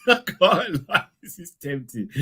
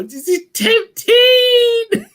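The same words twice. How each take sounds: First: Laughing. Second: Tempting stretched high and slow; high, slow tempted; drawn-out tempted squeal. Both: Real, not acted.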